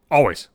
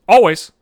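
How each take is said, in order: First: Said in the usual way. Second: Always. said much louder, falling hard; Always. barked out louder with a falling end; exasperated loud repeat. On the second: Real, not acted. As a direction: shout the word Always. in disbelief. Repeating complaint, louder second take.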